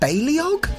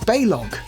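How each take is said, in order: First: The name is said with three syllables. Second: The name is said with two syllables. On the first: The speaker calls it wrong. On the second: The speaker calls it right. "it's two syllables, not three"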